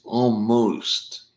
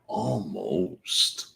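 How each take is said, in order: First: "Almost" stretched high and loud; emphatic almost. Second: Said in the usual way. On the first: Shown as a demonstration. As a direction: lean hard on "Almost". Repeating time, emphatic.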